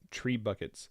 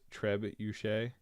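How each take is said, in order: First: It is said like the two words tree buckets. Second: It is said with a French-style shay ending. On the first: The speaker calls it wrong. "I called them tree buckets all day long" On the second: The speaker calls it right. "the pronunciation was trebuchet"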